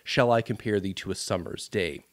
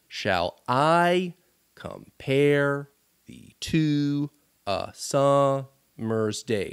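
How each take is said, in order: First: The syllable stresses sound natural and even. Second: Every second syllable is strongly stressed.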